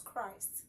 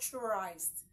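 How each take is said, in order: First: The word begins with a k sound. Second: The word begins with a ch sound. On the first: The speaker calls it right. "it is Christ" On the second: The speaker calls it wrong. "you don't use C H as ch"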